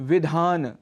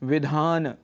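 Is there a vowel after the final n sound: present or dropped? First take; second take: present; present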